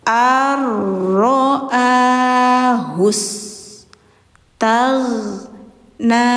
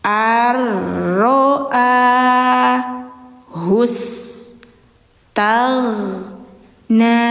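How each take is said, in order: The two takes are said the same way.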